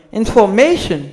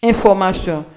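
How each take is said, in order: First: Information said the English way, ending in -shun; "information" with English vowels; English pronunciation. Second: Information said the French way, ending in a nasal -sion; "information" with French vowels; French pronunciation. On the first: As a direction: prononciation anglaise de information. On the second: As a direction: prononciation française de information. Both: Shown as a demonstration. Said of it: "En anglais, c'est pour dire".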